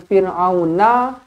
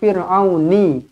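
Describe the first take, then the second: First: The word ends with an 'a' vowel. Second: The word ends with an 'i' vowel.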